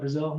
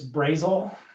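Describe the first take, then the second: First: It is said with the usual standard pronunciation. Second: It is said with the local Indiana pronunciation. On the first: "so would I call that Brazil?" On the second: "if you're in Indiana, it's Brazil"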